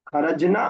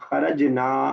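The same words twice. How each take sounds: First: The final vowel after n is short. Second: The final vowel after n is long. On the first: A group of women went out. "उसके अंदर नून खींचा नहीं जाएगा" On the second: We went out. "इसमें खींचा जाएगा"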